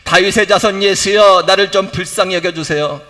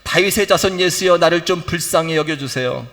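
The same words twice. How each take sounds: First: The cry is shouted out much louder. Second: The cry is called out at moderate loudness.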